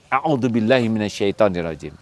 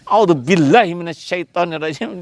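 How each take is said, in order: First: The phrase is said softly. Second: The phrase is said loudly.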